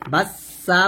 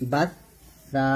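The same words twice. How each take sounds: First: The middle consonant is a plain s sound. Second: The middle consonant is made with tongue against teeth. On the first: The speaker calls it wrong. "বাসা বাসা বলা যাবে না" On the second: The speaker calls it right. "জিহ্বাটা উপরে দুই দাঁতের আগার সঙ্গে লাগাতে হবে"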